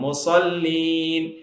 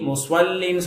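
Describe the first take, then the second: First: The s is plain without a w-glide. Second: The s is followed by a w-glide. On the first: The speaker calls it right. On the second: The speaker calls it wrong. "முஸ்வல்லீன் சொல்லிடாதீங்க"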